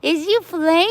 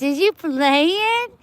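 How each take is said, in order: First: High cutesy question, quicker. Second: High, slowed cutesy question. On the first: Asking the cat again if it plays. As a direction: ask the kitty again, squeaky. Baby talk repeated. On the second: Asking the cat if it is playing. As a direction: stretch it out like talking to a kitten. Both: Real, not acted.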